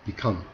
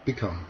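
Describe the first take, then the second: No difference in how they are said.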